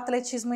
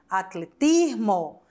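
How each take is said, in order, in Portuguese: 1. Ela é pronunciada do jeito português. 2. Ela é pronunciada do jeito espanhol. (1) "como se fala atletismo em espanhol?" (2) "Se escreve igual à língua portuguesa, porém a pronúncia é diferente"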